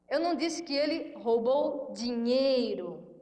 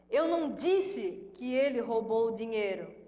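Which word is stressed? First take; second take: dinheiro; Eu. First: The stress is on "dinheiro". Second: The stress is on "Eu".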